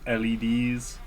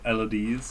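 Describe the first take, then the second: First: The name is spelled out letter by letter. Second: The name is said as a single word.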